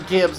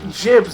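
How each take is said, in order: First: It starts with a hard g sound. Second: It starts with a soft j sound.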